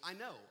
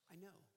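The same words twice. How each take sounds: First: It is said in a plain, matter-of-fact way. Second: It is said in a warm, earnest, empathetic way. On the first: The situation is simply noticed. "One way would be, I know, I'm aware, I've got it" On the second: The situation is understood from experience. "Listen to me, look at me. I want you to know, I know. I understand"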